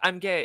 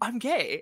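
First: It is said in a gloomy, negative tone. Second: It is said in a joyful, positive tone.

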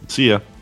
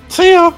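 First: It is said in his natural voice. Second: It is said in a Mickey Mouse voice.

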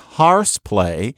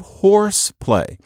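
First: The vowel in 'horse' sounds like 'ar'. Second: The vowel in 'horse' sounds like 'or'. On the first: The speaker is from St. Louis. "she says horse play" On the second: The speaker is not from St. Louis. "instead of horse play"

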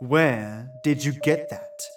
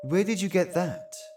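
First: It is asked in an accusing tone. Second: It is asked in a neutral, puzzled tone.

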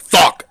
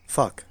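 First: The word is yelled loudly and aggressively. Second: The word is said softly and calmly. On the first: The game character gets upset. "But if you're like" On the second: The game character takes no offense. "If you just say, like"

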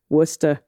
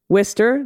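First: It is said in a broad local Massachusetts accent. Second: It is said in a plain, unmarked accent.

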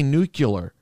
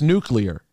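First: The word ends with a "cular" sound. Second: The word ends with a "clear" sound. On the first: The speaker calls it wrong. "you intentionally say nuclear to not bury Dip" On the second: The speaker calls it right. "You know that it's nuclear"

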